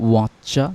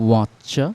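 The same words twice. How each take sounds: Both takes have the same delivery.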